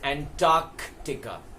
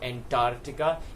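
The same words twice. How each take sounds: First: It is said with a k sound before the t. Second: It is said without a k sound before the t. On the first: The speaker calls it right. "it is Antarctica" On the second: The speaker calls it wrong. "It is not Antarctica"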